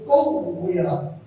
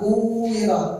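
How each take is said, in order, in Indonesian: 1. Huruf w digandakan dan diberi tekanan. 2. Huruf w dibaca sebagai vokal panjang. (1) "padahal ini kuwirat" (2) "Jadi umat kuwirat"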